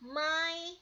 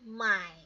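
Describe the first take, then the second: First: It is said with the first tone. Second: It is said with the third tone. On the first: "kita baca sampai nada ketiga" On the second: "stop di sana"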